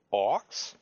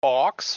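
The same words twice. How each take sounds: First: Puzzled question. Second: Surprised question. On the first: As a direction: ask it puzzled and unsure. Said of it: "Großes Fragezeichen". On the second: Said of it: "Frag ich". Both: Acted.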